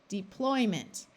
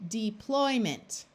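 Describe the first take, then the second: Both takes have the same delivery.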